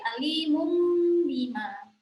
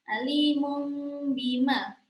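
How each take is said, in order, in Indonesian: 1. Bibir langsung menutup rapat sebelum bima. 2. Sengau sebelum bima ditahan dengan bibir yang ringan. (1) "langsung dikatup ya, ditutup rapat" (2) "iklab juga ya"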